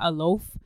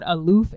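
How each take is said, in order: First: The second syllable has an 'oh' vowel. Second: The second syllable has an 'oo' vowel. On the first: The speaker calls it wrong. "not aloaf" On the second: The speaker calls it right. "Called aloof"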